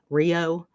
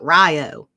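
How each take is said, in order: First: The first syllable is said like 'ree'. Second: The first syllable is said like 'rye'. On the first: This follows the spelling. "it's spelled like Rio Grande" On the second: This is how locals say the name. "everyone around here calls it Rio"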